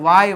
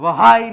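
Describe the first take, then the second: First: The word is said with no h sound. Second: The word is said with an audible h sound. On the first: The speaker calls it right. "આને વાય વાંચવામાં આવે" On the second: The speaker calls it wrong. "વહાય નહીં"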